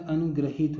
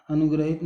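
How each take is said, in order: First: अनुग्रहित meant with the ri sound, a-nu-gri-heet; correct pronunciation. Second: अनुग्रहित run together as a-nu-gra-hit; wrong form pronounced. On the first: Teacher giving the right spelling, correct form sounded out. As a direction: say अनुग्रहित with "gri" for the ri vowel sign. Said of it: "अनुग्रहित होता है". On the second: Teacher rejecting a misspelling, wrong form sounded out. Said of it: "अनुग्रहित नहीं होता". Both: Shown as a demonstration.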